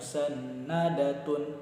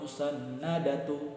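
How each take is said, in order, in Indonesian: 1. Kata ini berakhir dengan akhiran 'tun' yang penuh. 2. Kata ini berakhir dengan akhiran 'tu' yang pendek. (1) "jangan dibaca musannadatun" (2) "atau musannadatu"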